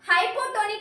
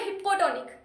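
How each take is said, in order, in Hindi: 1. पहला शब्दांश 'high' जैसा सुनाई देता है। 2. पहला शब्दांश 'hip' जैसा सुनाई देता है। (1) "हाइपोटोनिक मत बोलो" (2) "इसको बोलो हिप्पोटोनिक"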